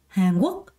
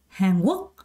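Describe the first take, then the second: No difference in how they are said.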